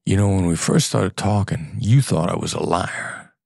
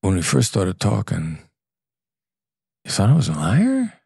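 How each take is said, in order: First: Scornful, looking down on them; contemptuous. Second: Curious and kind. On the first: To a client who doubted him, contemptuous. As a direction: say it like you think they're an idiot. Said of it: "And my tone of voice is, "You dumb M F er". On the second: To a client who once doubted him, gentle and curious. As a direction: ask it lightly, with no blame. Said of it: "And I could say". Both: Shown as a demonstration.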